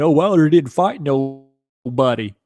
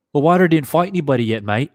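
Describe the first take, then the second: First: Slow, drawn-out mock British accent of a Fury fan; sneering Fury fan in a put-on British accent. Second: Quicker, higher retake in a mock British accent; second try at the Fury fan's British accent, faster; British accent redo. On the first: Streamer mocking Fury fans in a slow British accent. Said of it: "my poor attempt of a British accent". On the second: Streamer redoing the Fury fan line in a quick, higher British accent. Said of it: "of a British accent".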